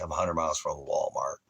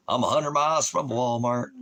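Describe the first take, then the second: First: Said in the usual way. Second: Higher, louder jokey put-on voice; mock voice. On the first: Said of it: "repeated, first plain". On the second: Shown as a demonstration. Vlogger repeats his Walmart line in a higher put-on voice. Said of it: "repeated in a put-on voice".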